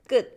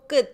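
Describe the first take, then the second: First: The final t sound is held unreleased. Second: The final t sound is audibly released. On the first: The speaker calls it right. "stop there and not release it" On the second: The speaker calls it wrong. "So we don't go 끝"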